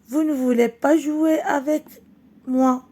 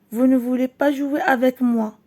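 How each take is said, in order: First: A touch of crying in the voice; tearful child. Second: Said in the usual way. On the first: Acted. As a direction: read Farid's line as a boy close to tears. Farid the crying boy answers.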